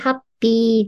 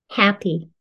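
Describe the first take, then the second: First: It is said loosely with Japanese katakana sounds. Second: It is said carefully with English H and vowel sounds. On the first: The speaker calls it wrong. "なんとなくハッピーじゃなくて" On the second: The speaker calls it right. "は、い、ハッピー"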